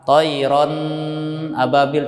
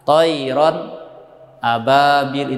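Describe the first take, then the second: First: The nasal sound is held before the next word. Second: A short silent pause separates the two words. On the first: "tidak boleh membaca dengan ditahan" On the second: "Ataupun berhenti sejenak"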